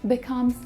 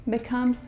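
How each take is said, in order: The two takes are said the same way.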